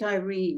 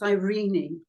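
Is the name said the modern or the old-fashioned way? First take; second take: modern; old-fashioned. First: The name is said the common modern way. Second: The name is said the old-fashioned way. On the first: The speaker calls it wrong. "I don't pronounce it Irene" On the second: The speaker calls it right. "It's Irene. That's how the it used to be pronounced in the old days"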